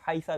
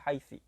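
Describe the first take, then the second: First: The word ends in an a vowel. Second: The word ends in an i vowel. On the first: "bisa dibaca fathah" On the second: "bisa dibaca kasroh"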